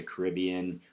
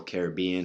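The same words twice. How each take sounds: First: Caribbean said as kuh-RIB-ee-un, stress on the second syllable; first pronunciation. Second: Caribbean said as kare-ib-BEE-un, stress on the third syllable; second pronunciation. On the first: Unsure of the name, tries Caribbean stressed on RIB. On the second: Corrects himself, saying Caribbean stressed on BEE. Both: Shown as a demonstration. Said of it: "however you say it".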